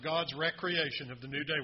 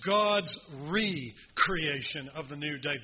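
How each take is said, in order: First: Recreation begins with a short 'rek' sound. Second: Recreation begins with a long 'ree' sound. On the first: It refers to leisure and play. The speaker calls it wrong. "Most people that sing that mispronounce it and say" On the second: It refers to creating something anew. The speaker calls it right. "It's God's recreation of the new day"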